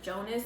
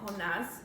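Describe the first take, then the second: First: The name is pronounced with an English pronunciation. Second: The name is pronounced with a Spanish pronunciation. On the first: "Jonas in English" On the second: "Jonas in Spanish"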